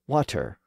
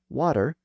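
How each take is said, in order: First: The middle consonant is a crisp T. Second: The middle consonant sounds like a soft D. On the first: This is the World English pronunciation. "you get water" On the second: This is the everyday American pronunciation. "American water"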